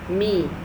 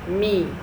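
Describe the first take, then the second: Both takes have the same delivery.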